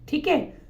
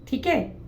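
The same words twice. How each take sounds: No difference in how they are said.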